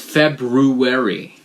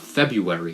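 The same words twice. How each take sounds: First: The R after the B is pronounced. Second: The R after the B is dropped. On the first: The speaker calls it right. "you gotta pronounce it February" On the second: The speaker calls it wrong. "it's not February"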